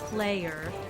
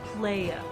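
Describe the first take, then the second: First: The final r sound is pronounced. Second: The final r sound is dropped.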